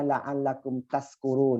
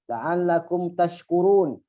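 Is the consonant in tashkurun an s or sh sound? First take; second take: s; sh. First: The last word has an s sound. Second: The last word has an sh sound. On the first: May you be drunk. The speaker calls it wrong. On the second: May you be grateful. The speaker calls it right.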